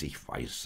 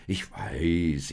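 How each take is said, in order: First: Lower, softer echo; dropped, resigned repeat; giving in. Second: Louder, stretched first reply; mildly put-upon protest; exasperated acknowledgement. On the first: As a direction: tail off into quiet acceptance. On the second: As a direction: concede it with emphasis. Josef nudged by impatient donkey. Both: A narrator's reading.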